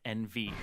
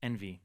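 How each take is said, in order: First: It is said as two separate letters. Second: It is said as one word, en-vee. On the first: The speaker calls it wrong. "not N V" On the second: The speaker calls it right. "I've been informed that it is Envy"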